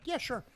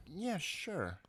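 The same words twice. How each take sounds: First: High, quick, willing yes; ready agreement. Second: Softer, drawn-out brush-off yes; insincere agreement. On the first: Host imitating a willing guest, easy high-pitched agreement. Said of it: "some people are just like". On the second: Host imitating a reluctant guest, drawn-out insincere agreement. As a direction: agree just to get rid of them. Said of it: "just gonna say this to you so that you go away". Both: Retold or imitated.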